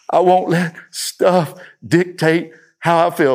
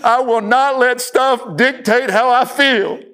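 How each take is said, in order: First: It is said a little louder. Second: It is screamed at full volume.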